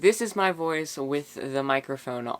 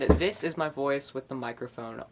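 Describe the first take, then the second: First: The voice sounds clear with little echo. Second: The voice sounds echoey and less clear. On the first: The speaker calls it right. "this is my voice with the microphone on" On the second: The speaker calls it wrong. "this is my voice with the microphone off"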